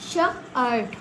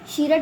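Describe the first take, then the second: First: The vowel is an ur sound. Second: The vowel is a long ee sound. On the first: The speaker calls it right. "इसको हम पढ़ रहे हैं शर्ट" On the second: The speaker calls it wrong. "शीरट नहीं पढ़ रहे ना"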